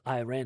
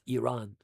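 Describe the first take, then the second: First: It sounds like the name of a drink. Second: It does not sound like the drink's name. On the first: The speaker calls it wrong. "it's not Iran" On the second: The speaker calls it right. "it's Iran. That's the proper pronunciation"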